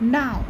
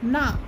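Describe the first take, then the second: First: The word is short and clipped. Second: The word is short and clipped.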